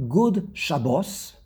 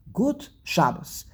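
First: Good with a D, Shabbos stressed at the end; slow good Shabbos, English D then Hebrew end-stress; English-Hebrew mix. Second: Good said as gut, Shabbos front-stressed, slow; slow Good Shabbos, T ending and first-syllable stress; all-Yiddish pronunciation. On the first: Teacher showing a mismatched greeting, English good and end-stressed Shabbos. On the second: Teacher showing the consistent greeting, gut and front-stressed Shabbos. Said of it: "you're consistent". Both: Shown as a demonstration.

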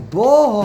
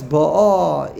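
First: Ba'ah with the accent on the opening "Ba"; stress on first syllable. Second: Ba'ah with the accent on the final "ah"; stress on last syllable. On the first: Teacher reads Rashi's later example, Ba'ah stressed on first syllable. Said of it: "hatam lamala". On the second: Teacher reads Rashi's first example, Ba'ah stressed on last syllable. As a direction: lean slowly on the second syllable of Ba'ah. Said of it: "atam the aleph". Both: Shown as a demonstration.

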